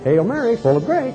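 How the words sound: It sounds playful, like a chirpy flight attendant. The speaker calls it wrong. "you don't play, ... Don't go to sound like a stewardess on American Airlines"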